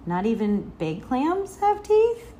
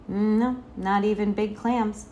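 First: Slow question climbing high on "teeth"; child's rising query, ending high on "teeth". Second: Father's settled answer, no questioning rise; matter-of-fact dad reassurance; assuring. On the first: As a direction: ask it with "teeth" lifted in wonder. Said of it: "asked Sal". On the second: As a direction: confirm it gently and firmly. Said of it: "her father assured her". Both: A narrator's reading.

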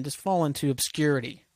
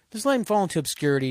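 First: Said in the usual way. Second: "let" hit hard, higher and quicker; emphatic repeat. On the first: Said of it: "not oblivion, just fall into obscurity". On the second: Real, not acted. Fed up with [name], hammering the point with faster emphasis. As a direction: push the words "Just let him" out with force.

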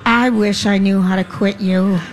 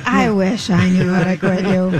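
First: Manly voice. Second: Low, slow cowboy voice; manly voice. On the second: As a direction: deepen it into a rugged cowboy drawl. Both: Acted. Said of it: "That was my manly voice".

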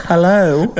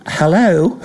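First: A dry, amused hello; Benaud's hello. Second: High, dry drawn hello; understated surprised hello; Benaud's hello. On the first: Repeating Benaud's surprised call, amused. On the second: Benaud reacting to Gilchrist's six, dry surprise. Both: Retold or imitated. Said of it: "Richie Benaud go".

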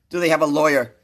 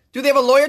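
First: Said in the usual way. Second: High, loud incredulous yell; exasperated shout. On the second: Real, not acted. Comedian repeating the question, now yelling in outrage. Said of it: "I'm getting a little excited".

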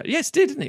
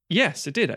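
First: Much higher, eager yes it did; excited remembering aloud; sudden delighted recall. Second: Said in the usual way. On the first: Real, not acted. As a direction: jump way up in pitch as it comes back to you. Recalling the BAFTA win, delighted.

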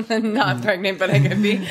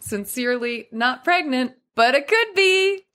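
First: Said through a laugh. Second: Teasing, coy lilt rising high; playful. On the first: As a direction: giggle it out, coy. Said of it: "deliver with good humor or a twinkle". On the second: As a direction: wink through it, teasing. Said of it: "I'd love to hear what you would suggest". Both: Shown as a demonstration.

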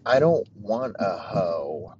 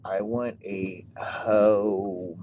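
First: "hoe" as a bare open syllable, said slowly; stress on hoe. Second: "home" stretched very long, closing on the M; drawn-out home. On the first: Host explaining hoe versus home, slow emphasis on "hoe". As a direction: slowly set out "hoe" with no M on the end. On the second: Host spelling out the difference, very slow drawn-out "home". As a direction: slowly drag out "home" and land on its final M. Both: Shown as a demonstration. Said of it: "M E, at the end".

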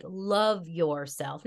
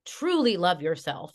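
First: "love yourself" slowly stretched out; drawn-out stress. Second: Said in the usual way. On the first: Shown as a demonstration. Teacher insisting on real self-love, "love yourself" stretched slowly. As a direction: draw out "love yourself" word by word.

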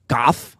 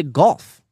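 First: "goff" with the L dropped; rejected pronunciation. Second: Louder, higher "golf" with the L in; claimed pronunciation. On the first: Denying chat's claim, "goff" shown without L. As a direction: say "goff" with open vowel, no L. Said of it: "I don't say g-, goff". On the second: Insisting to chat on own way, emphatic "golf" with L. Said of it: "I say golf". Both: Shown as a demonstration.

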